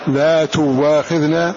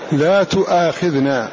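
First: The verb has a w sound after 'tu'. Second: The verb has a glottal stop after 'tu'. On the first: "فورش يقرأها" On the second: "فهمزة وقعت فاء من الفعل مفتوحة"

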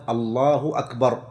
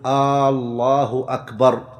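First: No vowel is drawn out in either word. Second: The opening vowel of the first word is drawn out. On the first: It states that God is the greatest. The speaker calls it right. "لا بد أن تكون بهذا اللفظ الله أكبر" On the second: The sentence becomes a question. The speaker calls it wrong. "ألا يمد الهمزة في لفظ الجلالة"

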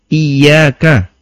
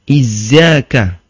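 First: The middle consonant is a y sound. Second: The middle consonant is a z sound. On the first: The speaker calls it right. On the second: The speaker calls it wrong.

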